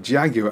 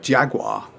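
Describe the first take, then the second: First: The word has a British pronunciation. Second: The word has an American pronunciation. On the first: This is how English people say it. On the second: This is how Americans say it.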